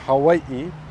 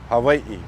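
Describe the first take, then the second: First: The middle consonant is a W sound. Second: The middle consonant is a soft V sound. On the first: "It's either a W sound" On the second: "or it's a soft V sound"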